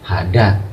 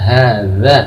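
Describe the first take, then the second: First: The middle consonant is a 'd' sound. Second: The middle consonant is a soft 'th' sound. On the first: The speaker calls it wrong. "atau bukan lagi hada" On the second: The speaker calls it right. "Yang betul adalah hadza"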